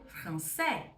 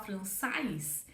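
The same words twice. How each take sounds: First: The vowels are said together, like 'eh'. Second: The vowels are said separately, like 'ah-ee'. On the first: The speaker calls it right. "A com I vira E" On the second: The speaker calls it wrong. "em vez de eu falar"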